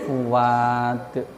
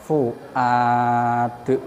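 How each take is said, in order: First: A w-glide replaces the glottal stop before a. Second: A glottal stop comes before the vowel a. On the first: "hamzahnya diganti waw" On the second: "Sekarang didahului dhammah"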